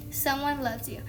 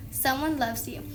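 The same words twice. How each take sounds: The two takes are said the same way.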